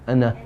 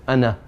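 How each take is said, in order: The two takes are said the same way.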